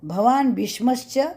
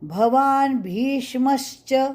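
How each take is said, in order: First: The vowel in 'bhi' is short. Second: The vowel in 'bhi' is long. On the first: The speaker calls it wrong. "नहीं" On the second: The speaker calls it right. "ये भी दीर्घ"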